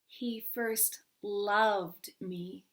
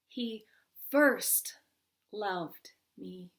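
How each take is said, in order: First: The stress falls on the word loved. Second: The stress falls on the word first. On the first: "third word"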